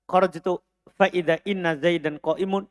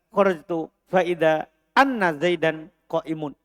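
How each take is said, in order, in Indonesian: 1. Kata setelah idza diawali dengan vokal i. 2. Kata setelah idza diawali dengan vokal a. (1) "Kalau kita kasroh" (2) "Kalau kita fathah"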